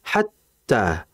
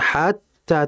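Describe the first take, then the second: First: The first vowel is short, straight into tt. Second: The first vowel is drawn out long. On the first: The speaker calls it right. "Langsung dimasukkan kata hatta. Seperti itu" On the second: The speaker calls it wrong. "Jangan kita memanjangkan hatta"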